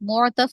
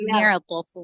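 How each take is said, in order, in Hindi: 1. पहले अक्षर में गोल 'u' स्वर है। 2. पहले अक्षर में बिना गोल हुआ आगे का स्वर है। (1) "मुअतफ नहीं"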